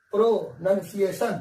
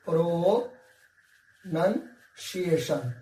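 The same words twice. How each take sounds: First: Said in the usual way. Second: प्रोनाउंसिएशन stretched very slowly syllable by syllable; slow pronunciation demo. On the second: Shown as a demonstration. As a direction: model प्रोनाउंसिएशन for students, very slowly. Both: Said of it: "प्रोनाउंसिएशन पे थोड़ा ज्यादा focus किया कीजिए".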